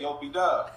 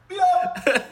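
First: The name is said plainly and flatly. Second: The name is shouted with lively inflection.

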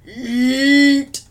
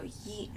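First: The word is a deep guttural sound from the throat. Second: The word is said in a soft whisper. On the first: "let it come from within you" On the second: "just whisper to me"

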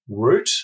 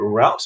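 First: Route rhymes with boot. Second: Route rhymes with out, American style.

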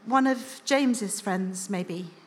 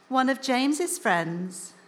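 First: It is said in a normal voice. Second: It is said in a high, whiny voice.

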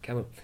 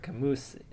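First: The final S is silent. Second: The final S is clearly pronounced. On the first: The speaker calls it right. "you wouldn't say the S that hard" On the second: The speaker calls it wrong. "That's a name that I'm botching again"

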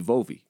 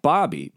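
First: The name begins with a V sound. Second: The name begins with a B sound. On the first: "you pronounce it the way they naturally want to pronounce it" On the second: "You take Bobby"

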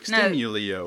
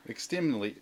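First: An extra 'ee' sound comes before the final O. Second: No extra sound comes before the final O. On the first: The speaker calls it wrong. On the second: The speaker calls it right.

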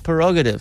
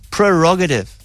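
First: There is no R sound after the P. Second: There is an R sound after the P. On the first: The speaker calls it wrong. "he says My Prerogative. Yes. That's not how you pronounce the word" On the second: The speaker calls it right. "It's Prerogative"

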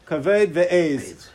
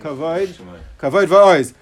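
First: The vowels are flattened to e, Lithuanian style. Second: The vowels sound like oi, in Ashkenazi style. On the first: "They would say" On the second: "Have we say"

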